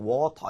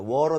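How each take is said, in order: First: It is said in a British accent. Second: It is said in an American accent. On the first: "영국식 발음은 A 사운드가 좀 강하게 나요" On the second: "워로 대신에"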